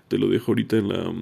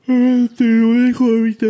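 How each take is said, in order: First: Said in the usual way. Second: Talking through a yawn; words stretched by a big yawn. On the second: Real, not acted. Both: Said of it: "perdón por bostezar".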